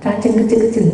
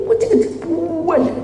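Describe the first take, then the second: First: Said in the usual way. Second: "Kecil-kecil" jumped up very high; "Kecil-kecil" said in a high squeak; squeaky emphasis. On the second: Shown as a demonstration. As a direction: squeak "Kecil-kecil" way up to show how tiny.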